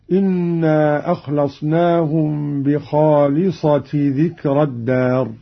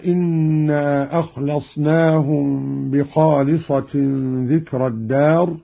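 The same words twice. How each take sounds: First: بخالصة ending in plain -ti, no nunation; without tanween. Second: بخالصة read with nunation, "bikhalisatin"; with tanween. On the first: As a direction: recite "bikhalisati" for بخالصة, joined to the next word. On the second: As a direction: sound the n at the end of بخالصة. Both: Shown as a demonstration. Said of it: "خالصة بغير تنوين".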